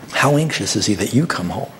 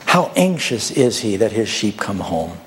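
First: You leaned on, then a falling close; stress on you. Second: Said in the usual way. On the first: Shown as a demonstration. Preacher turning the question onto you, stressing you. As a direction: press the word you hard.

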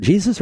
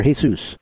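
First: Jesus said as JEE-zus; English pronunciation. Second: Jesus said as hay-SOOS; Spanish pronunciation. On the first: Host checking a caller's name, Jesus said the English way, JEE-zus. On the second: Host checking a caller's name, Jesus said the Spanish way, hay-SOOS. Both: Shown as a demonstration. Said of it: "Is it Jesus or Jesus?".

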